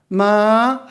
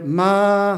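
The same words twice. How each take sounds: First: It is said with the tone for 'horse'. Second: It is said with the tone for 'come'. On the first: It means a horse. "마 하면은 말" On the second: It means to come. "마 하면 온다는 거예요"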